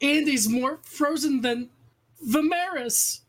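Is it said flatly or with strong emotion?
strong emotion. It is said with strong, heightened emotion.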